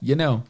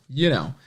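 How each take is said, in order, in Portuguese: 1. A palavra 'you' é encurtada, como 'yeah'. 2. A palavra 'you' é dita completa.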